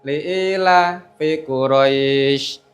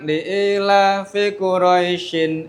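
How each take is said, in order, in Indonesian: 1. Kata terakhir berhenti pada bunyi ai yang dipanjangkan. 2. Kata terakhir berakhir dengan bunyi -in. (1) "Kalau wakaf" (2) "Kalau saya wasolkan"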